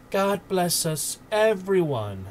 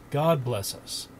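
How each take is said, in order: First: Put-on high, slow little boy's blessing; small boy's voice. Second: Said in the usual way. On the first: A narrator's reading. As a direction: echo it as a gentle small child. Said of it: "echoed Tiny Tim".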